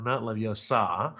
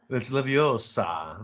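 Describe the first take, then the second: First: "Leviosa" said slow with stress shifted to the end, leh-vee-oh-SAH, as the wrong version; mock the wrong "Leviosa" slowly; Hermione's correction. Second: "Leviosa" drawn out slowly, stress on the "o", leh-vee-OH-sa; slow, prim correction of "Leviosa"; Hermione's correction. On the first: Lecturer imitating Hermione dismissing the wrong version. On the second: Retold or imitated. Lecturer imitating Hermione correcting Ron, slow and prim. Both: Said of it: "it's the other way around".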